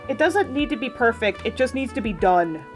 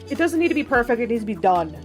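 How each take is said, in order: First: It is said at a slower pace. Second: It is said at a faster pace.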